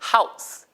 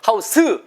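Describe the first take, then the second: First: The final s is a soft hiss. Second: The final s is a full extra syllable. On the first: The speaker calls it right. "까지만 살짝 나, 새어나가는 정도" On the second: The speaker calls it wrong. "이거 스 아니에요"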